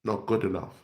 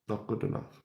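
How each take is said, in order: First: Said in the usual way. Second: Breathless whispered verdict. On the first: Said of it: "repeated verdict on team". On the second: Shown as a demonstration. Vlogger whispering his verdict on the team. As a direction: drop to a bare disgusted whisper. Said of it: "repeated verdict, whispered".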